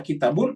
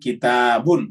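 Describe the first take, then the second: First: The middle vowel is short and not raised. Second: The middle vowel is held long and high. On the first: The speaker calls it wrong. "ya pasti salah" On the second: The speaker calls it right. "agak tinggi, agak taknya tak agak panjang"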